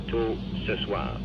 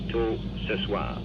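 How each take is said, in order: Both takes have the same delivery.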